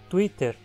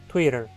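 First: It is said with Portuguese sounds and rhythm. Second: It is said with English sounds and rhythm. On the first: This is the usual adapted form in Portuguese speech. The speaker calls it right. "Twitter, e não Twitter" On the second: This keeps the pronunciation of the original language. The speaker calls it wrong. "e não Twitter"

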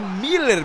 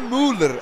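First: The first vowel sounds like 'ee'. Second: The first vowel sounds like 'oo'. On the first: The speaker calls it right. "é Miller mesmo" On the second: The speaker calls it wrong. "não é Müller"

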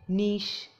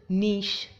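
No difference in how they are said.

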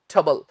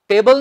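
First: The ending has a weak, reduced vowel. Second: The ending has a full 'tay' vowel. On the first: The speaker calls it right. "ਸਹੀ ਉਚਾਰਨ ਹੁੰਦਾ ਹੈ ਟਬਲ" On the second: The speaker calls it wrong. "ਟੇਬਲ ਨਹੀਂ"

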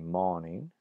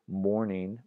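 First: No r sound follows the first vowel. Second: An r sound follows the first vowel.

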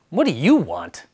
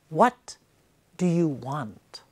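First: It is asked suspiciously and dismissively. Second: It is asked sincerely and personally.

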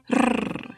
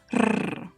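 No difference in how they are said.

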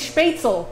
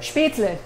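First: The word ends in an 'el' sound. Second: The word ends in a 'leh' sound. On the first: The speaker calls it wrong. "They say Spätzle, and it drives me" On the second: The speaker calls it right. "It's L-E, not E-L"

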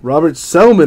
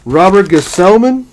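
First: The surname begins without a G sound. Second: The surname begins with a spoken G sound.

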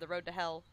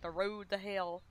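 First: It is said in a plain standard accent. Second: It is said with an odd, unusual accent. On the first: This is the usual way to say it. "instead of" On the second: This is how someone else said it. "he said some weird words weirdly"

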